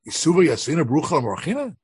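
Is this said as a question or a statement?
question. It is said as a question. Sitting without a blessing is unthinkable. "they read it as a question"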